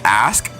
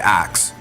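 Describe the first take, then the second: First: The word ends with an s then k sound. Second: The word ends with a k then s sound. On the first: "instead of saying ask" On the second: "I say axe"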